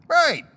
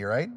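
First: High, loud squeaked reply; self-answer. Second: Said in the usual way. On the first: Pretend. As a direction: answer yourself in a pitched-up mock voice. Answers his own question.

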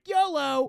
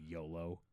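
First: High, loud, hammed-up whoop; mock gung-ho cheer. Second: Low, soft, dismissive imitation; unimpressed quote. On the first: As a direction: shout it like a reckless battle cry. Mocks reckless yolo while eating wings. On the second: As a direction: drop it like a verbal eye-roll. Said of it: "he rolled his eyes".

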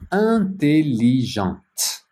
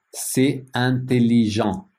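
First: Intelligente said slowly, with the final t sounded; feminine ending. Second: Said in the usual way. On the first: Shown as a demonstration. Teacher to French students, showing the feminine form: intelligente said slowly with a sounded t. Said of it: "Féminin".

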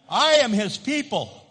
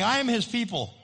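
First: "am" leaned on hard and louder in "I am his people"; louder repeat, stress on am. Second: Said in the usual way. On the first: Shown as a demonstration. Pastor leading the congregation's repeat, "am" louder. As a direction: push "am" up and out, louder than the first time. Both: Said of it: "Say that with me".

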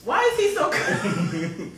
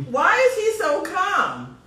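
First: Slower, laughing through the words. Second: Higher, louder, disbelieving; amazed. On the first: Host repeats her question about the calm guest, laughing. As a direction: chuckle while you ask it. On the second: Host marvels at her calm, soaked guest, high and loud. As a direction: ask it in amazement. Guest unfazed by water attack. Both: Real, not acted.

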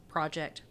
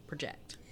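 First: "Project" as PRAH-ject, the noun; weight on the opening syllable of "Project"; stress on first syllable. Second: "project" as pruh-JECT, the verb; quick weak start on "project", weight on JECT; stress on second syllable. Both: Shown as a demonstration. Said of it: "Same word means two different things".

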